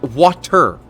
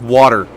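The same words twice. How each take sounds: First: The middle T is said clearly. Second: The middle T is softened and flapped. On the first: The speaker calls it right. "There's a T in there" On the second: The speaker calls it wrong. "most people say it like water"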